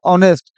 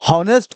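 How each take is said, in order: First: The word begins with a vowel, no h. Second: The word begins with an audible h sound. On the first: "उस लोग एच को उच्चारित में ना लेकर आते थे" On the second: "हॉनेस्ट को वो लोग क्या पढ़ते थे?"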